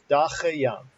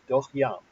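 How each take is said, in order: First: It is said with three syllables, vowel ah. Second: It is said with two syllables, vowel o. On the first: The vowel is read as long. "If this was a long vowel and pronounced ah, this would be da che yam, three syllables" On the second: The vowel is read as short. "this is a short vowel, so this becomes silent, and it's doch yam, two syllables"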